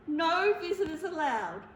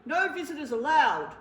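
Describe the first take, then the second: First: Tearful, still firm rule; sniffling. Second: Loud, firm refusal from a big bear; bear shouting a rule. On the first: Bear tearfully repeats the rule to the mouse. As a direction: say it through sniffles. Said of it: "he sniffled". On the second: Bear shouts the rule at the mouse, loud and stern. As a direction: bark the rule out at the door. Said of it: "Bear said, pointing to the sign". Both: Acted.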